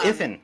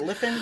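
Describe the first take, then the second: First: The name begins with a vowel sound. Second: The name begins with an L sound. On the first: The speaker calls it right. "that letter is in is in a capital I" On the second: The speaker calls it wrong. "I thought it was an L"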